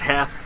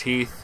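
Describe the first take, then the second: First: The name has a short vowel, like 'Heth'. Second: The name has a long vowel, like 'Heath'. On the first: Other people say it this way. The speaker calls it wrong. "I've heard that pronounced as Heth" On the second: This is how the person actually said it. The speaker calls it right. "I'm fairly certain it was Heath"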